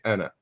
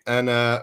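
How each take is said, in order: First: The final vowel is kept short. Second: The final vowel is drawn out long. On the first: The speaker calls it right. "We just say Anna" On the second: The speaker calls it wrong. "We don't say Anna"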